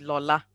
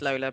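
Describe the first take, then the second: First: The name is said in its native way. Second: The name is said in an anglicized way. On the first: This is how the name is properly said. "the correct pronunciation of my name is actually Lola" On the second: This is the easy everyday version given to others. "I always tell people my name is Lola"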